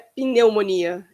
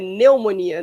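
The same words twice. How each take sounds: First: The initial P is pronounced. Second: The initial P is silent. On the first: The speaker calls it wrong. "Não é pneumonia" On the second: The speaker calls it right. "esse P não é pronunciado"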